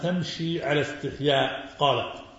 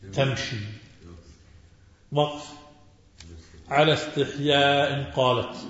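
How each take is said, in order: First: The pause comes after 'ala istihya', before 'qalat'. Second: The pause comes right after 'tamshi', before 'ala istihya'. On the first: The shyness was in the way she walked. "تمشي على استحياء وقف قالت" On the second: The shyness was in the way she spoke. "ومنهم من قرأ وجاءته إحداهما تمشي. وقف"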